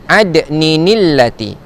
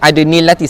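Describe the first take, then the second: First: An added 'ni' links the words as 'ninillati'. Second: It goes straight into 'nillati' with no extra syllable. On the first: The speaker calls it right. "cara bacaannya adalah ada ninillati" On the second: The speaker calls it wrong.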